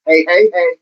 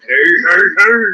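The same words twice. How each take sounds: First: Lightly voiced sitcom catchphrase; quick, even sitcom-style heys; a hint of TV catchphrase delivery; Good Times catchphrase. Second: Big cartoon catchphrase voice; drawn-out, rolling cartoon heys; Fat Albert. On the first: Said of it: "like, as in Good Times?". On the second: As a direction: put on a goofy cartoon character for the catchphrase. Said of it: "Fat Albert?".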